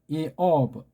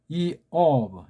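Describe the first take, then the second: No difference in how they are said.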